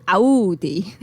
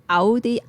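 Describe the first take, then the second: First: "Audi" opened into "ow-dee", louder, rising; "Audi" said as "Ow-dee", leaning on the ow; the other way. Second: "Audi" said as "Addy", short flat a, no ow sound; "Audi" with a plain open "ah", like "Ah-dee"; her own way. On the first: Contrasting her two versions of the car name, "Audi" as "Ow-dee". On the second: Showing how she says the car brand, "Audi" as "Ah-dee". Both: Shown as a demonstration. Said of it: "put the wrong emphasis on the wrong syllable".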